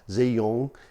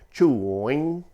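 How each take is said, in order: First: The name sounds like 'zhee-yong'. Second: The name sounds like 'chewing'. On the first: The speaker calls it wrong. "normally we come out with something like Zhiyong" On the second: The speaker calls it right. "phonetic representation that it's really sort of chewing"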